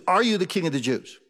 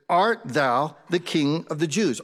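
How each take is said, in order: First: Said in the usual way. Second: Put-on slow, measured old-English question; deliberate scripture reading. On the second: Shown as a demonstration. Preacher quotes Pilate to the congregation, slow and deliberate. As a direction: read it out slowly, word by word. Reads scripture, then rewords it.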